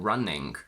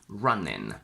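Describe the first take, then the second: First: It ends in ng plus a k sound. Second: It ends in a plain n sound. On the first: "or sometimes a k at the end" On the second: "a lazier option where we simply say n instead of ng"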